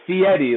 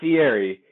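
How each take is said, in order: First: The name sounds like 'fee Eddie'. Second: The name does not sound like 'fee Eddie'. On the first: The speaker calls it right. "it's Fieri, like, hey, don't forget you have to pay that fee, Eddie" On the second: The speaker calls it wrong. "it's not Fieri"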